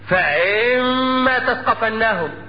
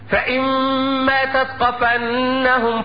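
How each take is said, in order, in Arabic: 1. الحركة بعد الهمزة ممدودة. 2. الحركة بعد الهمزة قصيرة. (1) "بعض القراء يتساهل ويمد الهمزة فينشأ من ذلك حرف غير موجود" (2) "اقرأ هكذا"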